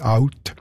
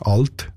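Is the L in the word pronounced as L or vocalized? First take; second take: vocalized; L. First: The L is vocalized into a vowel sound. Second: The L is pronounced as a clear L. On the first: "und nicht" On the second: "Die Altstadtburger haben das Ello nicht vokalisiert"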